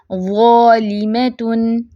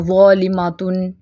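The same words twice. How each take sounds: First: ज़ालिमतुन slow, thick za then thin ma; only za heavy. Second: ज़ालिमातुन quicker, with thick broad ma; all letters heavy. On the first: Teacher models only za thick, slow recitation. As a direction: make just the first syllable of ज़ालिमतुन full. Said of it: "सिर्फ ज़ा मोटे". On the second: Teacher shows how not to read, everything heavy. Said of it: "ऐसे नहीं पढ़ना". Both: Shown as a demonstration.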